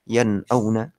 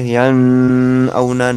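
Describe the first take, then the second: First: The n sound is pronounced clearly. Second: The n sound is blurred and nasalized. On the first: The speaker calls it right. "Dibaca jelas. Dibaca apa adanya nun" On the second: The speaker calls it wrong. "Nggak boleh yan auna, nggak boleh"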